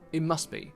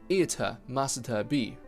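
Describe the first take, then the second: First: The t in must is held, unreleased. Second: The t in must is fully released. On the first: The speaker calls it right. "Just start saying" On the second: The speaker calls it wrong. "you don't want to say"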